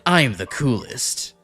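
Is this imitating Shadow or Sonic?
Shadow. It is said in a Shadow impression.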